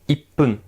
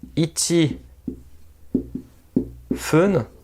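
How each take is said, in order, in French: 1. Ça se dit en un seul mot avec un p doublé. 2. Ça se dit en deux mots séparés, non contractés. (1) "Vraiment comme si que nous avions un i et un double p" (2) "c'est bizarre à dire, c'est compliqué un petit peu à prononcer"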